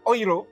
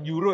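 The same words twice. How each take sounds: First: The word is said in the German way. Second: The word is said in a non-German way. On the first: The speaker calls it right. "di Jerman itu dibacanya euro" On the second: The speaker calls it wrong. "bukan euro ya"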